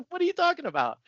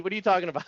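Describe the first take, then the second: First: Much higher, laughing scoff; retold ridicule, pitched way up with a laugh; laughing mock disbelief. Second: A scoffing, mocking jab; higher, scoffing at the pool lady; retold mocking disbelief, raised a little. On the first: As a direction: squeal it out in mocking laughter. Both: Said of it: "my gut reaction, I'm like".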